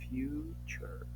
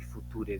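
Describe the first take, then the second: First: The middle consonant is a ch sound. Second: The middle consonant is a plain t sound. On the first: The speaker calls it right. "hace ese sonido como de che y decimos future" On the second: The speaker calls it wrong. "el future dirían algunos cuando lo pronuncian"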